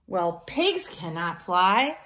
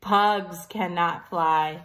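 First: Said in the usual way. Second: Pugs slow and stressed; corrected word. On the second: Shown as a demonstration. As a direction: lean on Pugs. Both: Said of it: "I read that wrong".

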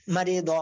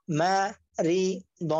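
First: "মারি দ" run together as one word; "মারি দ" read whole, in one go; joined-up reading. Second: "মা, রি, দ" one syllable at a time; teacher splitting "মা, রি, দ" for learners; broken-up syllables. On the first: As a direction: blend "মারি দ" without breaks. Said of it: "একসাথে reading করবেন". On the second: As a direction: pause after each part of "মা, রি, দ". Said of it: "আপনারা ভাঙ্গা উচ্চারণ করবেন". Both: Shown as a demonstration.

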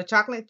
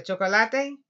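First: "chocolate" said the English way, CHOK-lit, pitched up; two syllables in "chocolate", English vowels; English pronunciation. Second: "chocolate" said the Spanish way, cho-ko-LA-te, ending on a rise; Spanish pronunciation. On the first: Teacher checking class knows the English word, English pronunciation. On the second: Teacher prompting class to say it, Spanish pronunciation. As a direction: sound out all four syllables of "chocolate". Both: Shown as a demonstration. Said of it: "Choco say chocolate".

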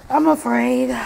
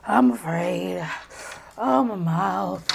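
First: Said in the usual way. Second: Slow, tearful whimper; crying. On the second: Real, not acted. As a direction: slowly whimper through the burning. Suffering from spicy noodles.

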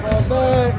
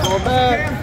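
First: Loud high call repeated; shouting orders over battle. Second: Loud high call to fall back; shouting orders over battle. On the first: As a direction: yell it again across the court. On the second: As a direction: bark it across the court. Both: Real, not acted. Parent shouting at basketball game.

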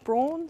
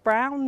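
First: "Brawn" with an aw vowel, as in "dawn"; mispronunciation. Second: "Brown" with the ow vowel of "now"; correct pronunciation. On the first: Lecturer warning the audience off misreading her co-author's surname, mispronunciation. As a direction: say "Brawn" to rhyme with lawn. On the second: Lecturer telling the audience how her co-author's surname sounds, correct pronunciation. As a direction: say "Brown" to rhyme with town. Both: Shown as a demonstration. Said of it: "it's pronounced Brown, not Brawn".

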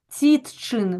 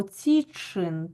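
First: «Цітчин» with a distinct т before ч; over-articulate «Цітчин» as written, т and ч apart; spelled-out wrong pronunciation. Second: «цічин» with тч merged into one long ч; natural merged pronunciation. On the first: Teacher shows pupils what we don't say, «Цітчин» with separate т. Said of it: "ми ж не вимовляємо". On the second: Teacher shows pupils how we say it, «цічин» with merged ч. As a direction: say «цічин» as it sounds, ціч-чин. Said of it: "вимовляємо". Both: Shown as a demonstration.

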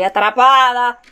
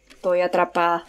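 First: Loud cry of being trapped; louder, wailed alarm; alarmed exclamation. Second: Said in the usual way. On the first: Real, not acted. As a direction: raise the voice in distress.

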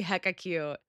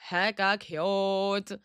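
First: Said in the usual way. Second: HECKA CUTE stretched very slowly; slow, savoring repeat; drawn out. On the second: Pretend. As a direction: linger on each syllable of "Hecka cute". Drawn-out repeat of own phrase.

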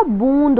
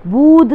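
First: "बूंद" said as boond with a nasal n; correct nasal. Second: "बूंद" said as bood with no nasal; wrong, without nasal. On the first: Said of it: "बूंद होता है". ("बूंद" नासिक ध्वनि के साथ) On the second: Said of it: "बूंद नहीं होता". ("बूंद" बिना नासिक के) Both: Shown as a demonstration.

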